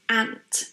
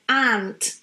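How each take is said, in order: First: The vowel is clipped and very short. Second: The vowel is drawn out and long. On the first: The speaker calls it right. "It's very short" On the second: The speaker calls it wrong. "lengthening this vowel and saying like ant"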